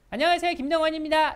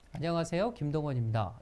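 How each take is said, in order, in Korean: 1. 힘을 준 록 가수 같은 목소리로 들려요. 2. 꽉 차고 자연스러운 말하는 목소리로 들려요. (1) "예전엔 제가 강사 소개를 할 때 ... 이 소리가 났어요. 되게 싸 보이지 않아요?" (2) "이렇게 목소리가 바뀌었어요"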